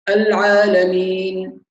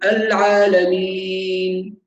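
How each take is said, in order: First: The long vowel is held for two counts. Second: The long vowel is held for four counts. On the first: "هذا 2" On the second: "العالمين 4"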